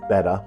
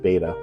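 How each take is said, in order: First: The first vowel sounds like in 'bet'. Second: The first vowel sounds like in 'bait'. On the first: The speaker calls it right. "it actually is pronounced betta" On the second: The speaker calls it wrong. "I have always pronounced it beta"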